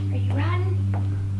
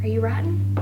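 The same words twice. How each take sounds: First: Higher, slow sing-song; talking to a dog. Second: Said in the usual way. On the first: Real, not acted. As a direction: stretch it out to the puppy. Repeated to puppy, drawn out.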